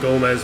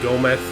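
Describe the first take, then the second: First: The name ends with a z sound. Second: The name ends with a th sound. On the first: "a z sound" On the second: "have like a th sound instead of like a z sound"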